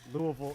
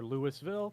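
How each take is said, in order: First: It is said the local Kentucky way. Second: It is said another way an outsider says it. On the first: "how we say ... Louisville" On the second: "or Louisville"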